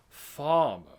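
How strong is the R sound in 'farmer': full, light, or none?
none. The R is dropped completely. "But it's not farmer. It's not the like com- the the R isn't totally gone"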